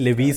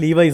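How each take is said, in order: First: The word ends with a 'vees' sound. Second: The word ends with a 'vice' sound. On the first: The speaker calls it wrong. "ചിലവർ ലെവീസ് എന്ന് പറയും" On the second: The speaker calls it right. "ശരിക്കും ഉച്ചാരണം ലീവൈസ് എന്നാണ്"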